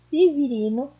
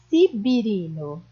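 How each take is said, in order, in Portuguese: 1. Tem som de v e vogais e. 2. Tem som de b e vogais i.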